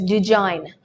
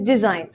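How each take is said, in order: First: It is said in a North Indian accent. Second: It is said in a neutral English accent. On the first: The speaker calls it wrong. "North India, where people's native language is Hindi, some people tend to pronounce it as design" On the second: The speaker calls it right. "The correct pronunciation for this word is design"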